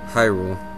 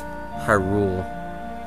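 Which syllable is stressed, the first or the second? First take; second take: first; second. First: The stress is on the first syllable. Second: The stress is on the second syllable. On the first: The speaker calls it right. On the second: The speaker calls it wrong.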